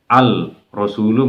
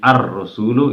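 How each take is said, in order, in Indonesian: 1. Bunyi l diucapkan dengan jelas sebelum r. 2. Bunyi l menyatu menjadi bunyi r yang ganda. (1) "al-nya tidak terbaca" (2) "menjadi ar-rasulu, itu bacaan syamsiyah"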